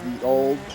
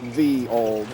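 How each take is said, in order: First: The first word begins with a Y sound. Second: The first word begins with a TH sound. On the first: The speaker calls it wrong. "That's actually not pronounced ye old" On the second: The speaker calls it right. "It's pronounced the old"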